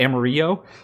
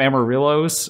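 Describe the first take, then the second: First: The name is pronounced in an exaggerated, careful way. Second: The name is pronounced in a plain, casual way.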